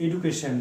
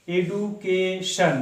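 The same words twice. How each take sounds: First: Said in the usual way. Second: education said very slowly, split into এ-ডু-কে-শন with a pause after each syllable; teacher sounding out education one syllable at a time. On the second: Shown as a demonstration. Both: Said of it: "এই কথাটা আমরা তিনবার উচ্চারণ করছি".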